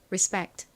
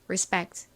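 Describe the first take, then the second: First: It is said American-style with a hard, tense p. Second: The same.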